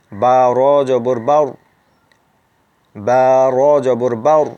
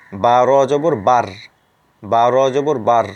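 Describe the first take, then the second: First: "বাউর" said with a full, rounded heavy r; correct heavy r. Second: "বার" said with a thin r, no rounding; the mistaken light "বার", not "বাউর"; wrong thin r. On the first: Teacher giving students the correct heavy r. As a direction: round it out to "বাউর", not "বার". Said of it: "আপনার উচ্চারণটি মোটা করতে হবে". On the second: Teacher showing students the wrong light r. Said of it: "আমরা যদি মোটা করে না পড়ি এখানে, তাহলে এরকম উচ্চারণ হতো". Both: Shown as a demonstration.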